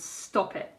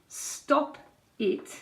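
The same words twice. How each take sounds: First: The two words run together as one. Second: The two words are said separately. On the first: The speaker calls it right. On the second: The speaker calls it wrong.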